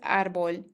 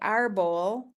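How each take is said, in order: First: It is said with a native Spanish accent. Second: It is said with an English-style accent. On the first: The speaker calls it right. "the child's accent of the word árbol was native accent" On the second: The speaker calls it wrong. "He did not say árbol, which is how um, some might interpret that word"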